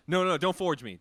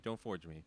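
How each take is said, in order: First: Mock protest. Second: Said in the usual way.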